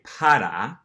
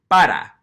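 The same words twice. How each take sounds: First: "para" with an English puffed P and tapped R; aspirated P. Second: "para" with no puff of air on P, tapped R; Spanish "para", unaspirated P and flapped R. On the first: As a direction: potter turned into "para", ending in ah. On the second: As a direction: punch "para" loudly, P almost like B. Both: Shown as a demonstration. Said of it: "not giving it that little puff of air".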